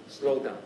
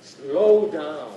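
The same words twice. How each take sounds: First: Said in the usual way. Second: SLOW DOWN stretched out long and louder; drawn-out, weighty "Slow down". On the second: Shown as a demonstration. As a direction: draw out "Slow down" to show the slowing.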